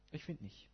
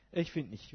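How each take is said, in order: First: Soft murmur. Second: Said in the usual way. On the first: Shown as a demonstration.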